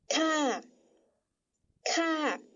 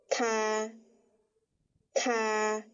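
First: The syllable is said with the third tone. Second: The syllable is said with the first tone. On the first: "就要念第三声调，念作咔咔" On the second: "第一声调对应的这个发音念作ka ka"

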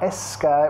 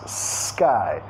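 First: An extra vowel sound comes before the S. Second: The word starts directly with the S. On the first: The speaker calls it wrong. "asegúrate no meter un sonido vocálico extra antes de la S. No es sky" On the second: The speaker calls it right. "más sky. Directamente con la S"

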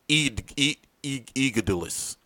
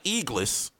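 First: The name is said in four syllables. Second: The name is said in two syllables.

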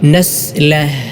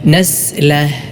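The two takes are said the same way.

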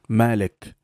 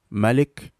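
First: The first A sound is long. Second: The first A sound is short. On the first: "from the Hafs recitation style" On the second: "the shortened A sound in Warsh style of recitation"

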